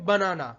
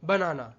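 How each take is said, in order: No difference in how they are said.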